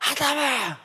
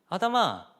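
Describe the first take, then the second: First: It is called out in a harsh, angry tone. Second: It is called out in a soft, caring tone. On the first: The caller wants to punish the one hiding. The speaker calls it wrong. "하나님 그렇게 부르셨을까요?" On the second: The caller wants to cover the other's shame. The speaker calls it right. "수치를 덮어주시려는 음성이에요"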